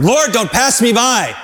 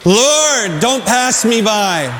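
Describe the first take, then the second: First: Calling out. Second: Raised plea, said together. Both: Shown as a demonstration. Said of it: "Let's say that together".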